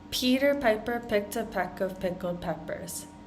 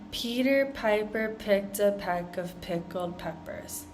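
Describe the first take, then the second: First: It is said at a moderate pace. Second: It is said at a slow pace. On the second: "going through it slowly"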